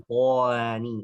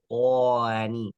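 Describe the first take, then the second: Both takes have the same delivery.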